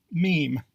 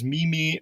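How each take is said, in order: First: Meme as one syllable, "meem"; proper pronunciation. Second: Meme in two syllables, "MEE-mee"; mistaken pronunciation. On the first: Narrator giving the correct form, meme pronounced "meem". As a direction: say meme to rhyme with team. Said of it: "Proper pronunciation is". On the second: Narrator quoting a common mistake, meme pronounced "mee-mee". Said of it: "found yourself pronouncing this word as". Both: Shown as a demonstration.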